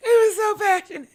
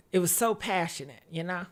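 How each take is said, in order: First: High, quick, crying voice; tearful squeal. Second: Low, soft, tender remembering; wistful and quiet. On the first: Acted. Same words repeated, breaking up. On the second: Real, not acted. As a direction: say it softly, lost in memory. Wistful memory of lover.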